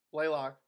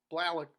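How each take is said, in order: First: Blaylock said as BLAY-lock; the name Blaylock fixed to BLAY-lock, long A; correcting to Blaylock, BLAY-lock; name corrected. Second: Blalock said as BLAH-lock with a flat a; the name Blalock stumbled as BLAH-lock; a first-try Blalock, BLAH-lock, about to be corrected; name misread. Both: Shown as a demonstration.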